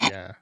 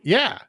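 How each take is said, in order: First: It is said flatly without energy. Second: It is shouted with excited energy.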